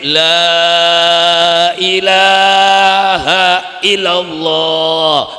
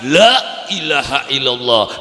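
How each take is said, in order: First: It sounds like a rousing cry from a stage. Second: It sounds like an exasperated, fed-up sigh.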